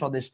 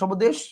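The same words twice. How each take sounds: First: The b-phala is silent after the first consonant. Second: The b-phala is sounded after the first consonant. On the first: The speaker calls it right. "আপনি বলেন স্বদেশ" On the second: The speaker calls it wrong. "স্বদেশ বলেন না"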